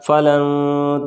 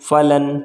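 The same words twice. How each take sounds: First: The n is hidden as a nasal sound. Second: The n is pronounced as a clear n. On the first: The speaker calls it right. "क्योंकि हुरूफ इख्फा है नून साकिन के बाद।" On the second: The speaker calls it wrong. "लेकिन फ़लन नहीं पढ़ेंगे"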